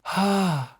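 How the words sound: The voice is light with little vocal fold pressure. "very little compression"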